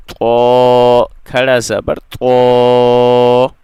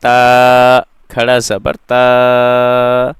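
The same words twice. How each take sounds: First: तो said thick and heavy, the vowel drawn out slowly; heavy full-mouthed to. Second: ता said light and thin, the vowel drawn out slowly; thin ta, long vowel. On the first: Teacher demonstrating a heavy, drawn-out तो. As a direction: give तो a full, heavy sound. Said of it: "अब ये त्वापुर है". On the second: Teacher demonstrating a thin, drawn-out ता. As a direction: stretch ता thin and slow. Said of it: "तो ये था बारीक ता". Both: Shown as a demonstration.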